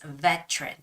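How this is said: The middle T is a crisp, hard sound. "in a British English way ... you make that hard T sound"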